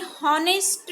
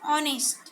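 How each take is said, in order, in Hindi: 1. यह शब्द h की ध्वनि से शुरू होता है। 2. यह शब्द सीधे स्वर से शुरू होता है।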